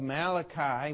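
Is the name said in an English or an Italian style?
English. The name is said with a plain English pronunciation. "We'll pronounce it the proper way"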